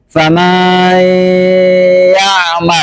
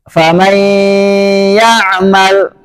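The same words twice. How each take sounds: First: The vowel after the m is drawn out. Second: The vowel after the m is short.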